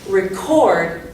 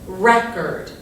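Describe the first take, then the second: First: The stress is on the second syllable. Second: The stress is on the first syllable. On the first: It names the act of recording, a verb. "You can hear that the emphasis is on the cord part" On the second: It names a recorded disc, a noun. "the emphasis is going to be on this first syllable"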